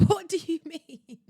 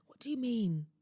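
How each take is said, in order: First: Slow, laughing "What do you mean?", higher and louder; laughing outrage. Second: Said in the usual way. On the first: Real, not acted. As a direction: burst out laughing in disbelief.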